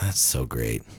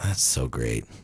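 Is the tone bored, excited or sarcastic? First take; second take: bored; bored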